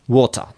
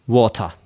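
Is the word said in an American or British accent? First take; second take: British; British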